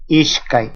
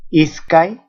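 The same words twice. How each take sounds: First: "ishkai" with sh before the k; S as SHA. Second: Said in the usual way. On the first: Shown as a demonstration. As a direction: say "ishkai", hushing the s into sh. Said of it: "en algunos casos como sha". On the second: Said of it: "Esta suena sa".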